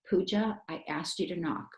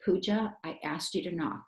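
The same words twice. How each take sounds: First: It is said in a calm talking voice. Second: The same.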